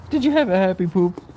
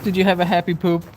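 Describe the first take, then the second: First: Higher cooing question again; pet talk. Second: Higher cooing question to the dog; pet talk. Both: Real, not acted. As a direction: coo it to the dog.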